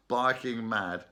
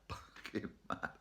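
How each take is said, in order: First: Said in the usual way. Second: Breathy giggling aside; laughing whisper. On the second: Real, not acted. Laughing repeat of barking mad.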